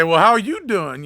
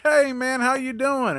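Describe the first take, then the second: First: Slow, a bit louder, cool and curt; mildly pissed off. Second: Much higher, sugary friendly greeting; higher, fake-friendly customer greets the mechanic; overly nice. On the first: Retold or imitated. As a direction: hold back the anger, let a little show. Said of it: "I'm pissed off a little bit". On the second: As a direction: play the customer acting sweet as pie. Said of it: "he's, like, being really nice".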